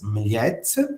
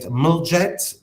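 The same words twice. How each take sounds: First: It is said with the native Croatian pronunciation. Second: It is said with an American-style pronunciation. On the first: The speaker calls it right. "but the pronunciation is Mljet" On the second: The speaker calls it wrong. "Americans like to call it Mljet"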